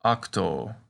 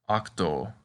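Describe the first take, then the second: First: "octo" said slowly, short open o, then long o at the end; teacher models "octo" slowly for the class to repeat; slow Latin demo. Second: Said in the usual way. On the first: Shown as a demonstration. Teacher models octo slowly for students. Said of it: "Say octo". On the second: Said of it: "A good word to practice with is octo".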